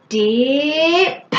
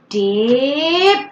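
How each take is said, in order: First: The final p sound is loud and popped. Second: The same.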